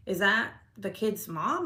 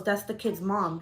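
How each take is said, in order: First: MOM drawn out and rising, as a question; slow question that lifts at the end on "mom". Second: Falling statement, settled on "mom"; confirming. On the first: Woman wondering to herself about the visitor, questioning. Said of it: "I'm thinking to myself". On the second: Teen answers whose mom it is, confirming. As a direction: state it plainly, dropping at the end on "mom". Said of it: "and she goes". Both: Retold or imitated.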